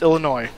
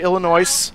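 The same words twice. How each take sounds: First: The word ends without any S sound. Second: The word ends with an audible S sound. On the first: The speaker calls it right. "it is not pronounced" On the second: The speaker calls it wrong. "Do not say Illinois"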